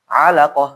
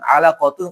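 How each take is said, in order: First: The word ends with a soft h sound. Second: The word ends with a full -tun ending. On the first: The reader stops on this word. "kalau disukunkan ya alaqah" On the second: The reading continues without stopping. "yang dhammatain misalkan apa misalkan alaqatun"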